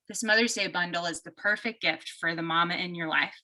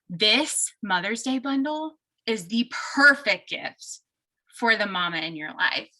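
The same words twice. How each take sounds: First: It is said flatly with little energy. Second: It is said with lively, enthusiastic energy. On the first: The speaker calls it wrong. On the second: The speaker calls it right.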